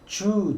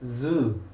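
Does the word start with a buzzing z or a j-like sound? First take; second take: j-like sound; buzzing z. First: It starts with a Korean j-like sound. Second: It starts with a buzzing voiced z sound. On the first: The speaker calls it wrong. "많이 실수하시는 게 주, 주 하거든요" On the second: The speaker calls it right. "주가 아니라 zoo, zoo 이렇게 발음하셔야 됩니다"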